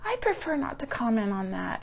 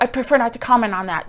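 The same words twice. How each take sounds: First: It is said in a warm, sincere tone. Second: It is said in a curt, insincere tone. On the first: The speaker politely and honestly declines to answer. The speaker calls it right. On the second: The speaker is brushing off the question. The speaker calls it wrong.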